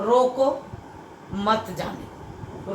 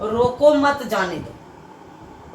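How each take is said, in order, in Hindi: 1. roko के ठीक बाद एक विराम है। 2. इसे बिना किसी विराम के सीधे पढ़ा जाता है। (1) "रोको के बाद अल्प विराम लगाने से रोकने के लिए कहा गया" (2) "पहले वाक्य में अर्थ स्पष्ट नहीं होता है"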